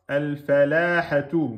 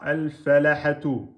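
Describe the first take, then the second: First: The l is single but the vowel is long. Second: The l is single and the vowel is short. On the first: "Vous avez oublié la shidda" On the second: "vous avez oublié la, la prolongation et la shidda"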